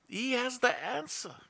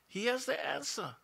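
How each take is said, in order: Both takes have the same delivery.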